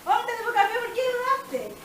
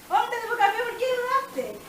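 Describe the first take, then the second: First: It is said gently, with a smile. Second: The same.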